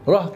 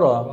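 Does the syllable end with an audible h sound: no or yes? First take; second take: yes; no. First: The syllable ends with an audible h sound. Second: The syllable ends on the open vowel, no h. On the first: The speaker calls it wrong. "রাহ বলে একটা হ আছে" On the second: The speaker calls it right. "রা ফাতা রা"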